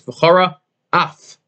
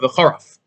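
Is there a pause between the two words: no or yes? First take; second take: yes; no. First: There is a clear pause between the two words. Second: The two words run together with no pause. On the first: The speaker calls it right. "You should make a space between v'chara and af" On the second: The speaker calls it wrong. "so it doesn't sound like one word of v'charaf"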